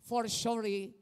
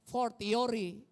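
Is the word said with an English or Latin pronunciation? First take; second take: English; Latin. First: It is pronounced the English way. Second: It is pronounced the Latin way. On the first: "in English" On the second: "in Latin"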